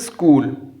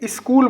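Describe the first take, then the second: First: The word begins directly with the 's' sound. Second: An extra 'i' vowel comes before the 's'. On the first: The speaker calls it right. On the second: The speaker calls it wrong.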